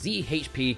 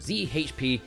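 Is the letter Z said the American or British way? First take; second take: American; American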